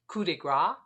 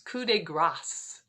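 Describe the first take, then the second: First: The final s sound is left silent. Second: The final s sound is clearly pronounced. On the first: It means fat blow. The speaker calls it wrong. "want to say it more French" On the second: It means death blow. The speaker calls it right. "you want to add that S"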